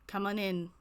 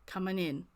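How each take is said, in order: First: It is said in a high-pitched voice. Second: It is said in a lower voice.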